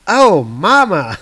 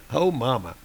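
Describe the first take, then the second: First: Slow, loud disgusted drawl; disgusted groan. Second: Said in the usual way. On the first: Acted. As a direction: gag at the stench. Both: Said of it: "he says out loud".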